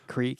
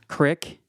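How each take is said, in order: First: It is said with a standard pronunciation. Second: It is said like crick, with a Kansas accent.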